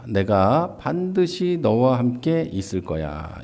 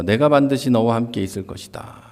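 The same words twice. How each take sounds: First: 반드시 leaned on, whole line slow; slow promise. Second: Said in the usual way. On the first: Shown as a demonstration. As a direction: slowly assure him, stressing 반드시. (반드시를 힘주어 천천히 다짐하듯)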